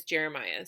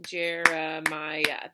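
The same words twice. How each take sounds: First: Said in the usual way. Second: "Jeremiah" slowly split into four beats; each syllable of "Jeremiah" separate and even. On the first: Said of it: "So yours would be". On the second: Shown as a demonstration. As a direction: clap out "Jeremiah", one beat per syllable. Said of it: "count syllables by clapping out your name".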